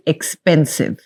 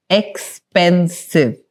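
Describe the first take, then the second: First: Said in the usual way. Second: "Expensive" drawn out slowly, each syllable separated; syllable count demo. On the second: Shown as a demonstration. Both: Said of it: "How many syllables?".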